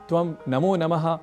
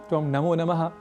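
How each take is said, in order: Both takes have the same delivery.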